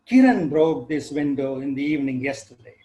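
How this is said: The stress falls on the word Kiran. It was this person who broke it, not someone else. "I want to draw attention to the breaker of the window"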